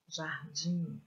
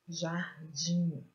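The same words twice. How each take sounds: First: Said in the usual way. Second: Jardim in two parts, DIM held and stressed. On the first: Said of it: "pronuncio a sílaba com mais força". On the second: Shown as a demonstration. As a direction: split jar-DIM and lean on DIM. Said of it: "estas sílabas que estão destacadas são as sílabas". (jardim separado, com força no DIM)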